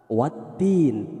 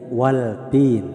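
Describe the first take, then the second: First: The l is dropped into a doubled t. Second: A clear l is heard before the t. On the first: The speaker calls it right. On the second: The speaker calls it wrong. "tidak waltin ya"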